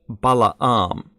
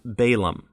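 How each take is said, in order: First: It uses the original Hebrew pronunciation. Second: It uses the common English pronunciation. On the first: This is the technically correct original form of the name. "Technically it's Balaam" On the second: This is the familiar standard form of the name. "Normally we hear it as Balaam"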